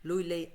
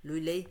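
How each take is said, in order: Both takes have the same delivery.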